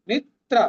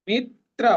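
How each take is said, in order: Both takes have the same delivery.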